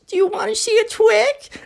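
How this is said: It is said in a baby voice.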